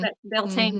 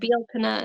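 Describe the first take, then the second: First: The name is said the way it looks written. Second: The name is said with a Gaelic pronunciation. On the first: "it looks like Beltane" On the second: "Bealtaine is, I think, how you're supposed to say it"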